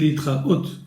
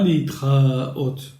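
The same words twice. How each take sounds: First: The stress falls on the last syllable. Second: The stress falls before the last syllable. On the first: The speaker calls it right. "on dit leitraot. Donc ce mot s'accentue sur la dernière syllabe" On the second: The speaker calls it wrong. "on ne dit pas leitraot"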